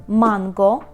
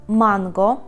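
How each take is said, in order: The two takes are said the same way.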